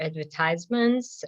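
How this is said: It uses a North American pronunciation.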